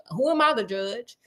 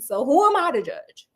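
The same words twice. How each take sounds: First: A chuckle, then the question tossed off lightly; laughing it off. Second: Said in the usual way. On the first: Retold or imitated. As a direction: laugh through the line, shrugging it off. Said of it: "And I was like".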